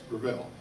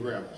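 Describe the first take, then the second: First: The stress is on the second syllable. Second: The stress is on the first syllable. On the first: This is how the name is said in Canada. The speaker calls it right. "Emphasis on the second syllable" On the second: This is how Americans say the name. The speaker calls it wrong. "This is us Americans and our stupid pronunciations"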